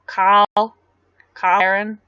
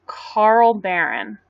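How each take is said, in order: First: Australian "Carl Barron", R dropped from Carl; Australian accent. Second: Said in the usual way. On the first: Shown as a demonstration. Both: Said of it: "when I said Kyle Barron".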